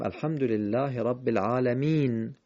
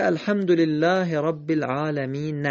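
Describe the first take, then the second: First: العالمین closing on a bare n, "alamin"; silent ending on العالمین. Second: العالمین ending in an audible short a, "alamina"; final vowel voiced on العالمین. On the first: Teacher showing how to read it, العالمین ending on bare n. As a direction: stop on the n of العالمین with no vowel after it. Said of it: "ولی باید بخونیم". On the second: Teacher showing the written form, final short a voiced on العالمین. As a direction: read العالمین as written, sounding a after the n. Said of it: "نوشته". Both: Shown as a demonstration.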